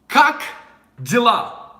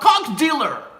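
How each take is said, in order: First: It is said with native Russian vowels. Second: It is said with anglicized English-sounding vowels. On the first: The speaker calls it right. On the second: The speaker calls it wrong. "I'm a cock dealer"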